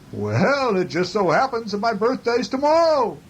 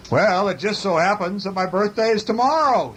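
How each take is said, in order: First: Higher-pitched mountain echo voice. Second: High storybook bear voice; calling bear. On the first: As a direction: send it back as a high echo. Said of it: "The echo came back". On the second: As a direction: call it out to the moon, pitch raised. Bear calls across to the moon. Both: A narrator's reading.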